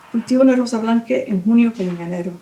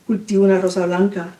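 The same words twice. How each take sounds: First: Fluent Spanish. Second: Stumbling Spanish. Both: Acted. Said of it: "how do you read that accent".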